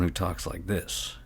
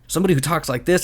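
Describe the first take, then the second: First: Softer and slow, a second NPC; contrasting quiet voice. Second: A different voice for one NPC; first demo voice. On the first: DM contrasting two NPC voices, soft and slow. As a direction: drop it soft and drawn out. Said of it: "a lot different than someone". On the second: DM showing an NPC voice, in a distinct put-on voice. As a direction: put on a character voice briefly. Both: Shown as a demonstration.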